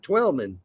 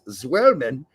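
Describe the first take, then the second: First: The name starts with a plain t sound. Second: The name starts with a ts sound. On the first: This is how others say the name. The speaker calls it wrong. "and not Twelman" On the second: This is how the family says the name. The speaker calls it right. "it's Zwellman"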